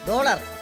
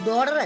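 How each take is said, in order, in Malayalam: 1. നടുവിലെ വ്യഞ്ജനം L പോലെയാണ് കേൾക്കുന്നത്. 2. നടുവിലെ വ്യഞ്ജനം R പോലെയാണ് കേൾക്കുന്നത്.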